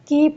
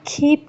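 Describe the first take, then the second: First: The k is said without a puff of air. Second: The k is said with a puff of air. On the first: The speaker calls it wrong. "कीप नहीं कहेंगे" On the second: The speaker calls it right. "खीप कहेंगे"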